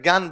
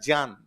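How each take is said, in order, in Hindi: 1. यह j और nya ध्वनि-समूह के बिना शुरू होता है। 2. यह j से शुरू होता है, जिसके साथ nya ध्वनि जुड़ी होती है। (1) "बोलते गलत है, ज्ञान बोलते हैं" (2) "तो ये वास्तव में होता है ज्ञान"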